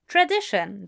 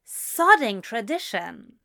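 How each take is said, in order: First: Said in the usual way. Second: Slow, bitter emphasis on sodding; fed-up muttering; scornful. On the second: A narrator's reading. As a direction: sneer at the word. Narrator's scorn.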